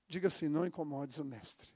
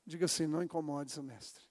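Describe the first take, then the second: No difference in how they are said.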